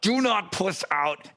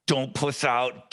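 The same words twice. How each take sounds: First: "not" pitched up and punched, "Do not puss out"; stress on NOT. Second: Said in the usual way. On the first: Retold or imitated. Psyching himself up before naming his salary, hitting "not". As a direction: lean hard on "not" in "Do not puss out". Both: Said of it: "I'm squeezing my leg and I'm like".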